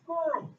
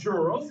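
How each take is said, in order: First: The word begins with a hard g sound. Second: The word begins with a soft j sound. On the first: The speaker calls it right. "it's girls" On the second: The speaker calls it wrong. "it's not girls"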